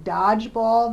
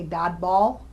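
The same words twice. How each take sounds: First: Said in the usual way. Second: "dodball" with a plain d in place of dge; distorted sound. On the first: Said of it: "instead of saying". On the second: Shown as a demonstration. Clinician showing distorted sounds, "dodball" with d for dge. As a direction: say "dodball", losing the j sound from dodgeball. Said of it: "we see distorting sounds in words".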